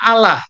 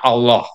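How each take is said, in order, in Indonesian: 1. Diucapkan dengan pelafalan Syriac Timur. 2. Diucapkan dengan pelafalan Syriac Barat. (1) "Oleh orang Syria Timur dibacanya" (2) "oleh orang Syria Barat dibacanya"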